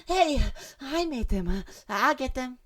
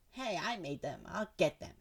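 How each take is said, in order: First: Much higher, slow, gushing; overexcited cute girl squeal; too excited. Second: Said in the usual way. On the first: Acted. Voicing Natsuki claiming her cupcakes, overexcited and high. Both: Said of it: "Sorry, a little too excited".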